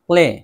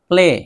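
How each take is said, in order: No difference in how they are said.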